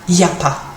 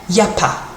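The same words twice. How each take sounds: First: The opening 'il' is dropped. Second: The same.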